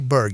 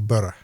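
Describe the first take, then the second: First: It ends in a hard g sound. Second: It ends in an open vowel, no g. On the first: The speaker calls it wrong. "You don't say burg" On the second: The speaker calls it right. "you say borough"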